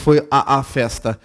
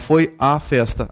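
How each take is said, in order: First: The 'a' vowel is pronounced twice in a row. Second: The 'a' vowel is pronounced only once. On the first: The speaker calls it wrong. "é repugnante você falar o A duas vezes" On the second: The speaker calls it right. "apenas uma vez o a"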